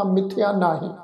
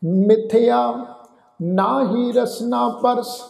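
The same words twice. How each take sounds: First: ਮਿਥਿਆ ਨਾਹੀ run together, with the pause falling after ਨਾਹੀ; wrong pause. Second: Slow, a clear break after ਮਿਥਿਆ, then ਨਾਹੀ ਰਸਨਾ ਪਰਸ together; pause after ਮਿਥਿਆ. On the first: Showing the sangat the wrong pause after ਨਾਹੀ. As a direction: demo of the wrong phrasing, no break after ਮਿਥਿਆ. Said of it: "ਇਸ ਢੰਗ ਨਾਲ ਉਚਾਰ ਨਹੀਂ ਕਰਨਾ". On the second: Teaching the sangat the right pause after ਮਿਥਿਆ. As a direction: hold on ਮਿਥਿਆ, pause, then read on slowly. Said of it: "ਮਿਥਿਆ ਸ਼ਬਦ ਉੱਤੇ ਅਸੀਂ ਵਿਸ਼ਰਾਮ ਦੇਣਾ ਹੈ". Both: Shown as a demonstration.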